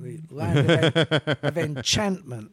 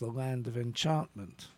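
First: It is said in an American accent. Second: It is said in a non-American accent.

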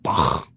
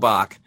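First: The name is said forcefully with a German-style ending. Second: The name is said plainly, without a harsh ending. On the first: "they really lay into it" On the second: "you nailed it"

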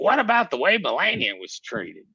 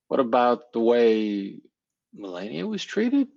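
First: The question is asked in an angry tone. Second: The question is asked in a calm tone. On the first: The speaker is hitting back in anger. The speaker calls it wrong. "they immediately shoot back... And they're seeing themselves saying in that tone of voice" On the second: The speaker is making the point in a way that gets heard. The speaker calls it right. "you could say the same thing and say, ... and that would land"

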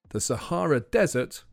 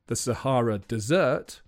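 First: The last word is stressed on its first syllable. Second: The last word is stressed on its second syllable. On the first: It is a hot, dry place. "is one of the hottest places on the planet" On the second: It is a sweet dish. "is probably something with figs and yogurt"

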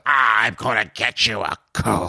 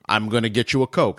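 First: It is said in a menacing, threatening tone. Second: It is said in a plain, friendly tone.

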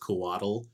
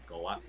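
First: The ending sounds like a soft 'dle', as in waddle. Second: The ending is a crisp, distinct 'tl' sound. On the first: "almost like you're saying waddle" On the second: "if you wanted it to be more accurate"

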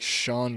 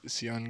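First: The name is said like 'Sean'. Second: The name is said like 'Sion'. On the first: The speaker calls it wrong. "It looks like Sean Garnier or however you say it" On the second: The speaker calls it right. "but it's Sion Garnier, I believe, is the correct pronunciation"

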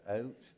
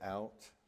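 First: The word is said in a Nova Scotian accent. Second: The word is said in a Southern US accent. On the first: This is how the listeners say it. "you say out" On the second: This is how the speaker's own people say it. "we say out"

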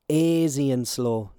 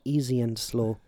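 First: The first word begins with an 'ay' vowel. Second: The first word begins with an 'ee' vowel. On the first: The speaker calls it right. "It's called Easy and Slow, ... A-I-S-Y" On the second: The speaker calls it wrong. "not Easy and Slow, just for all of you Yanks out there"

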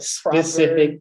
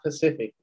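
First: The word begins with an s sound. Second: The word begins with a p sound. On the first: The speaker calls it right. "The whole specific" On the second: The speaker calls it wrong. "it's not Pacific"

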